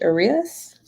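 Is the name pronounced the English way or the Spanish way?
English. The name is pronounced the English way. "But what would it be in English?"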